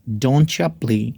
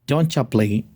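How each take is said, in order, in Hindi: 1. Don't you मिलकर एक शब्द बन जाता है, doncha। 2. Don't you मिलकर एक शब्द बन जाता है, doncha।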